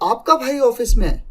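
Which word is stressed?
भाई. The emphasis falls on the word भाई. "तो जब आपके भाई पे जोर दिया"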